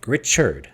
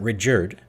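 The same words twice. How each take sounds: First: The middle consonant is a ch sound. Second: The middle consonant is a j sound. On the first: The speaker calls it right. "that's a Ch sound" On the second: The speaker calls it wrong. "It's not Richard"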